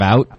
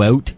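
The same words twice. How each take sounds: First: It is said with an American accent. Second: It is said with a Canadian accent.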